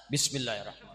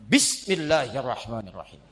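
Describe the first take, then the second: First: Even softer Bismillahirrahmanirrahim, teasingly muted; mock quieter. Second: Said in the usual way. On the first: Shown as a demonstration. Preacher answering the heckle by saying Bismillahirrahmanirrahim even softer. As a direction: say Bismillahirrahmanirrahim more quietly as a joke. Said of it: "Kurang jelas". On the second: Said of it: "Saya contohin".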